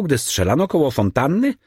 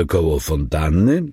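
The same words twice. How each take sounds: First: Said in the usual way. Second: Changed voice. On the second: A narrator's reading. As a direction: repeat "Koło fontanny?" in an altered voice. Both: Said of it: "powtórzył zmienionym głosem".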